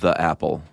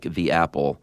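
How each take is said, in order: First: The word 'the' is pronounced 'thuh'. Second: The word 'the' is pronounced 'thee'. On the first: The speaker calls it wrong. "not the apple" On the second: The speaker calls it right. "like the apple"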